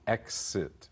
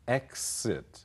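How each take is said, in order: First: The middle consonant has a voiceless s sound. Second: The same.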